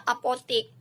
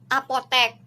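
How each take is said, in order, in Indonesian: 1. Vokal terakhir berbunyi i. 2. Vokal terakhir berbunyi e. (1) "Kata tidak bakunya apotik" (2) "kata bakunya apotek"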